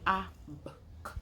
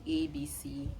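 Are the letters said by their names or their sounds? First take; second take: sounds; names. First: Each letter is said as its short sound. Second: Each letter is said by its alphabet name. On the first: "That's the letter sound" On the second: "we do not teach children"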